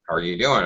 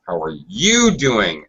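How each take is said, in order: First: The word you is not given extra stress. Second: The word you is strongly stressed. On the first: It is an ordinary opening greeting. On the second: The question is turned back to the other person, not me.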